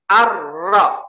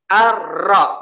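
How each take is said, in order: First: The r is trilled very hard and long. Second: The same.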